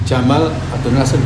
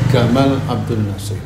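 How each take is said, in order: First: The first name begins with a j sound. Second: The first name begins with a hard g sound.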